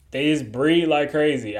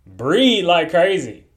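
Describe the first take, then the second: First: Said in the usual way. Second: Slow, higher and louder on "breed like crazy"; emphatic. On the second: Real, not acted. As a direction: lean hard on "breed", stretch it out. Emphatic punchline, then repeated.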